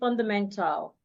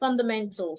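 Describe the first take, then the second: First: The last syllable has a full A vowel. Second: The last syllable has a reduced, silent vowel. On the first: The speaker calls it wrong. "So you don't say fundamental" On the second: The speaker calls it right. "you say fundamental"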